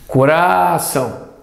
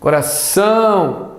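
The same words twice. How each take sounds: First: The middle syllable's vowel is stretched out. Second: The last syllable's vowel is stretched out. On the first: The speaker calls it wrong. "Será que é o A?" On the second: The speaker calls it right. "Será que esse outro A aqui?"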